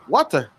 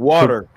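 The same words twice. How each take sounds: First: It is said in a British accent. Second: It is said in an American accent. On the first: "Like a British people would say"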